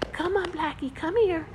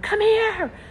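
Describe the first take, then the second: First: It is said quietly, in a gentle voice. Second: It is said loudly, like a yell. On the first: The caller sounds gentle and inviting. The speaker calls it right. "call them in a soft voice" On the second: The caller sounds harsh and stern. The speaker calls it wrong. "she's yelling at him"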